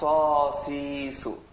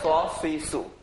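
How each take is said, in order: First: The vowels are drawn out long. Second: The vowels are short and quick. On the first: "টান হবে" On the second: "আগে পড়েছি তাড়াতাড়ি"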